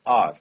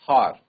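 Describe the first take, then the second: First: The word begins directly with a vowel. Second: The word begins with an h sound. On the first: The speaker calls it right. "We से आर" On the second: The speaker calls it wrong. "We do not से हार"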